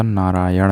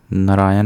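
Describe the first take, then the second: First: नारायण said "naaraayan", long first vowel, retroflex final ण; correct retroflex ending. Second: नारायण said "naraayan", short first vowel, dental final n; wrong vowel and nasal. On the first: Teacher correcting, नारायण with long "naa" and retroflex ण. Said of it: "अंत में ड़ होता है". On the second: Teacher showing the error, नारायण as "naraayan". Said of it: "नहीं होता". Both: Shown as a demonstration.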